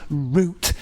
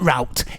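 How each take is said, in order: First: It is said the British way, rhyming with 'boot'. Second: It is said the American way, rhyming with 'out'.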